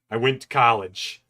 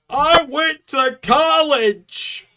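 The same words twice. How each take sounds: First: Said in the usual way. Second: High, slow shrieking cartoon cry; Plankton voice. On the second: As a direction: wail it like a frustrated cartoon villain. Plankton-style outburst, acted response.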